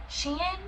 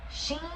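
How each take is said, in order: First: Shein? asked softly with a high rising tune, said "shee-in"; quiet questioning try at Shein; unsure pronunciation. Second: Shein? again, short, soft and rising, clipped to "shee"; Shein? repeated under the breath; second try. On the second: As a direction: try Shein once more, quieter. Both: Shown as a demonstration. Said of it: "Is it Shein or Sheen?".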